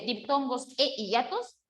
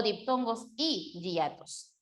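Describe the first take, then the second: First: "e hiatos" with eh as the joining word; e option. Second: "y hiatos" with ee, then "hiatos" as yah-tos; y option. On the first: Teacher quizzes students with the first option, eh in "e hiatos". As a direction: offer "e" as eh before "hiatos". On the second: Teacher quizzes students with the second option, ee in "y hiatos". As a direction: offer "y" as a held ee before "hiatos". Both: Shown as a demonstration. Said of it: "¿Qué coloca usted?".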